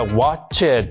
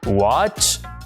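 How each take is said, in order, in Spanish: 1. La terminación es una sílaba extra 'id'. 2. La terminación es un sonido 't' corto y sordo. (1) "el verbo en pasado no se pronuncia watched" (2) "sino watch y le ponemos ahí este sonido"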